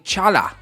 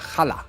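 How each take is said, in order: First: The word starts with a 'ch' as in church. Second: The word starts with a throaty, raspy sound. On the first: The speaker calls it wrong. "I have been mispronouncing one of the breads, where I was saying chala" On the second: The speaker calls it right. "but realistically it's a challah"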